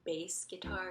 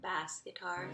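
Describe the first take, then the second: First: The vowel in 'bass' sounds like 'face'. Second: The vowel in 'bass' sounds like 'mass'. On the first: The speaker calls it right. "I found out it's bass guitar" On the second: The speaker calls it wrong. "not bass guitar"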